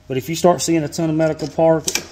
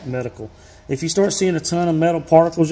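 First: Says medical particle instead of metal particles; a quick slip saying medical particle; misspoken medical. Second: Says metal particles clearly after the slip; self-corrected metal particles, said plainly. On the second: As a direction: restart and land metal particles right. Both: Real, not acted.

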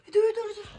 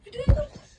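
First: Said in the usual way. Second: Whispered, no voice; whispering. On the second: Real, not acted. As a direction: breathe it without voicing. Repeated as whisper.

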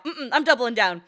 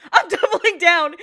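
First: Said in the usual way. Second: Laughing. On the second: Real, not acted. Laughing, repeating line louder.

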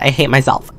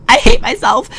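First: Said in the usual way. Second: Much higher, louder "I hate myself"; dramatic wail. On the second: Shown as a demonstration. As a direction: wail "hate" in a high squeal. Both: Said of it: "why did I do that".

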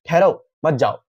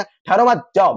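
First: "ठहरो", then a comma pause, then "मत जाओ"; pause after ठहरो. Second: "ठहरो मत" as one phrase, comma pause, then "जाओ"; pause after मत. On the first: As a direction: break after ठहरो, keep मत जाओ together. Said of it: "ठहरो के बाद अगर हम लोग कॉमा लगा देंगे". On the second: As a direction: break after मत, set जाओ apart. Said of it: "के बाद कॉमा लगा देंगे". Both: Shown as a demonstration.

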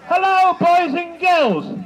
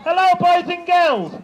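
First: Higher, slow, loud panto greeting; panto callback. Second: Panto callback. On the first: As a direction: call out to the kids slowly. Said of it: "we'll try again". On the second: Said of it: "So when I say". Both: Shown as a demonstration.

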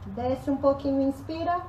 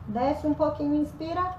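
Both takes have the same delivery.

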